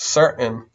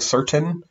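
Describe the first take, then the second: First: The middle T is a glottal stop. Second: The middle T is a full released T. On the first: "words where you have the glottal" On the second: "Instead of saying certain"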